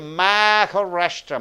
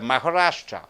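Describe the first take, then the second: First: The vowel before the H is fully pronounced. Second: The vowel before the H is reduced. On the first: The speaker calls it wrong. "You don't say Maharashtra" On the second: The speaker calls it right. "So you are reducing the vowel A because before H"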